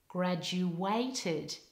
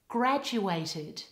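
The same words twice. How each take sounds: First: The stress is on the third syllable. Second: The stress is on the first syllable. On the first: The speaker calls it wrong. "put the stress on the third syllable, like this" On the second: The speaker calls it right. "The stress in this word should be on the first syllable, like this"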